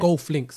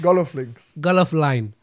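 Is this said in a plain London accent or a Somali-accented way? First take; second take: plain London; Somali-accented. First: It is said in a plain London accent. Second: It is said with a Somali accent.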